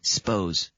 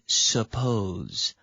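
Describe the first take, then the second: First: The s runs straight into the p. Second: The first vowel is fully pronounced. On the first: "when we speak quickly, we often say suppose" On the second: "So we should say suppose"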